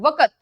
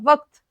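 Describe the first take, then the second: First: A vowel is heard after the q sound. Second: No vowel is heard after the q sound. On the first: The speaker calls it wrong. "अगर मैं इसको इस तरह पढ़ूं वक़्त, तो ये गलत है।" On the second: The speaker calls it right. "काफ साकिन हो जाएगा"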